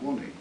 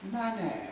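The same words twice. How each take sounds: First: It is short, with a working-class accent. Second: It is drawn out very long, aristocratic-sounding. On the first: The speaker is an ordinary working-class boy. "Simeon's working class money" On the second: The speaker is a wealthy upper-class gentleman. "drawn out to about ten times its normal length"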